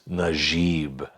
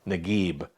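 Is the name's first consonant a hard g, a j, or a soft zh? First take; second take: soft zh; hard g. First: The name begins with a soft French-like zh. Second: The name begins with a hard g sound. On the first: This is how it is said in Lebanon, under French influence. "if you get to Lebanon... heavily influenced by French" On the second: This is how it is said in Cairo. "in Cairo like a G, a hard G"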